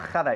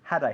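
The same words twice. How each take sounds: First: The h is a harsh, scraping throat sound. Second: The h is a soft, light breath. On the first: The speaker calls it wrong. "not pronouncing the had as if it began with a jota" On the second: The speaker calls it right. "it's had I"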